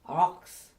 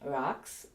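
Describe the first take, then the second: First: Deep throat consonant with a darkened vowel. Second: Plain k sound with an ordinary English vowel. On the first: The speaker calls it right. "being a dark letter, it also changes the sound of the vowels" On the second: The speaker calls it wrong. "not so much rocks"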